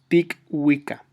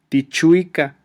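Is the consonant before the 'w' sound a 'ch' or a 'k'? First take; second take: k; ch. First: It is read with a 'k' sound before 'wica'. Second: It is read with a 'ch' sound before 'wica'. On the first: The speaker calls it right. "es C la pronunciación" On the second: The speaker calls it wrong. "en español a lo mejor ustedes pudieran pensar que se lee Tichuica"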